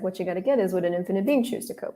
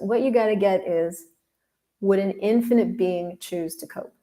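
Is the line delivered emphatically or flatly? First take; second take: flatly; emphatically. First: It is said casually, with little emphasis. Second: It is said with strong, dramatic emphasis.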